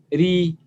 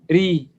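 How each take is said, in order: No difference in how they are said.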